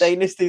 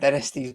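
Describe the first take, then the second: First: The word is said the American way. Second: The word is said the British way. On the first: "Dynasty's American" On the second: "Dynasty's British"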